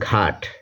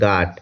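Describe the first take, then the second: First: The first consonant is aspirated, with a breath puff. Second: The first consonant is unaspirated, with no breath puff. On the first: "Bangla উচ্চারণ ঘাট" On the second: "আর সিলেটি ভাষায় হবে ঘাট"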